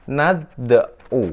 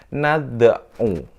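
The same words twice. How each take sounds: First: The d carries only a brief half-vowel bounce. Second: The d carries only a brief half-vowel bounce.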